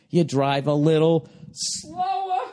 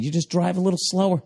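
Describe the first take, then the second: First: "slower" stretched out very long; exaggerated slow delivery, lingering on "slower"; drawn-out slow. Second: Said in the usual way. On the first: Shown as a demonstration. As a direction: spell it out slowly, dragging "slower". Repeats it, acting out slower.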